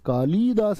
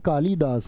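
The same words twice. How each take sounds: First: The vowel after 'l' is held long. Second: The vowel after 'l' is kept short. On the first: The speaker calls it wrong. "नहीं है" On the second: The speaker calls it right. "ये छोटी ई आती है"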